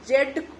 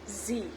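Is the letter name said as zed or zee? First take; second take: zed; zee. First: The letter name ends in a d sound. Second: The letter name ends in an ee vowel. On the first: The speaker calls it wrong. "जेड हम लोग गलत बोलते हैं" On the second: The speaker calls it right. "उसे जी बोला जाता है"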